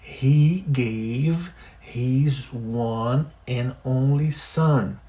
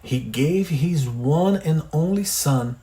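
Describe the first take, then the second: First: The sentence is said even more slowly. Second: The sentence is read at normal speed.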